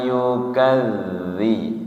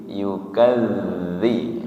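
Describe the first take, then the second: The two takes are said the same way.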